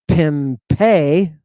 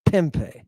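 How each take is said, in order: First: PIMPE wrongly stressed on its last syllable, pim-PE; slow pimpe, loud on PE; stress on the end. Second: PIMPE said PIM-pe, the ending falling away; stress on first syllable. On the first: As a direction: drag out pimpe slowly and punch the final syllable. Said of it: "It's not pimpe". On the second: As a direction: hit the start of pimpe and drop the second syllable. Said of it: "it's pimpe". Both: Shown as a demonstration.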